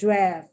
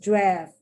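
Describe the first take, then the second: First: The vowel sounds like the one in 'daft'. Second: The vowel sounds like the one in 'daft'.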